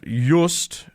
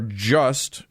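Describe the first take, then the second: First: The name is given a non-English pronunciation. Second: The name is given an ordinary English pronunciation.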